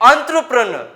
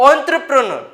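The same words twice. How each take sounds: Both takes have the same delivery.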